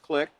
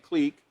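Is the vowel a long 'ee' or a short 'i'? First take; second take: short i; long ee. First: The vowel is a short 'i' sound. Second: The vowel is a long 'ee' sound. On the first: "or commonly known as" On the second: "it's got the long E there, K L long E K"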